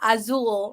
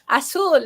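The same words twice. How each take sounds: First: The middle consonant is a buzzing z sound. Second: The middle consonant is a hissing s sound. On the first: The speaker calls it wrong. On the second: The speaker calls it right. "I'm going to teach you correct pronunciation"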